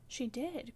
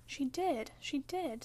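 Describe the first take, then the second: First: Understated insistent cry. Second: Teasing playground chant; sing-song taunt. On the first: Girl contradicting her cousin about her aunt, crying out. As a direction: contradict firmly, without shouting. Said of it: "cried my young lady". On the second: Boy gloating at his enraged cousin, singing it tauntingly. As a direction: lilt each repeat up and down to needle. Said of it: "sang Linton". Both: A narrator's reading.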